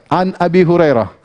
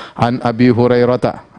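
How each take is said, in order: First: "Hurairah" stopping on -rah, no ta; no ending vowel. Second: "Hurairah ta" with the final ta sounded, low; full grammatical ending. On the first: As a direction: pause form of "Hurairah", final vowel dropped. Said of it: "Nggak usah dikasih harokat". ("Hurairah" tanpa harakat akhir) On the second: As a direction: pronounce the "ta" that ends "Hurairah ta". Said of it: "Kalau sudah belajar nahu tahu". ("Hurairah ta" dengan akhiran ta dibunyikan) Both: Shown as a demonstration.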